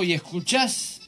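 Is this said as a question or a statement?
question. The voice rises at the end, like a question. The listener is being asked whether they are listening. "Cuando yo dije, ¿escuchas?"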